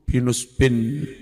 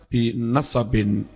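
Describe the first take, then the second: First: It has 'u' after 'n' and no vowel after 's'. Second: It has 'a' after both 'n' and 's'. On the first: This is the majority reading. "bi dhammin nun wa sukunis sad" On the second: This is a minority reading with the same meaning. "bi fathin nuni wasad"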